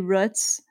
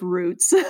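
First: The word has a regional vowel pronunciation. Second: The word has the standard vowel pronunciation. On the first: This is how people from the speaker's region say it. "I say roots instead of roots" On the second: This is how most people say it. "instead of roots"

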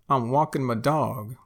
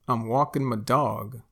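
No difference in how they are said.

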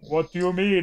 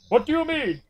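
First: It is said in the speaker's own accent. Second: It is said in an American accent.

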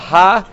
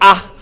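First: It starts with an h sound. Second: It starts with a vowel. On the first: The speaker calls it wrong. "it's not ha" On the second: The speaker calls it right. "it's ah"

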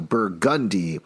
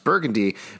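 First: The second syllable gun is stressed. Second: The second syllable gun is not stressed. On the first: This is how locals say it. "with an emphasis on the gun" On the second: This is the usual pronunciation elsewhere. "like anyone would normally pronounce Burgundy"

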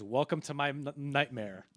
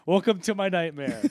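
First: It is said with a stutter before nightmare. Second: It is said smoothly and dramatically, without stuttering.

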